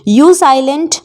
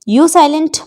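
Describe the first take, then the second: Both takes have the same delivery.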